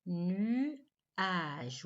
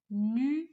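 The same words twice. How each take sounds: First: Nuage said slowly and falling, sounds spelled out; careful repeat. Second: Nuage called out louder with a rising tune; announced word. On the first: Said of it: "le son A est au milieu". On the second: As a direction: call out Nuage as a question to the class. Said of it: "Oui, et même que le son A". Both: Shown as a demonstration.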